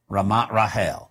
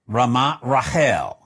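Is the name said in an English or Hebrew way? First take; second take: Hebrew; Hebrew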